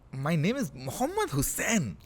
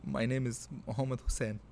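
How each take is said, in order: First: It is said in a disgusted tone. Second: It is said in a sad, sorrowful tone.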